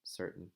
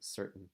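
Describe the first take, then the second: First: A glottal break replaces the T. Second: The same.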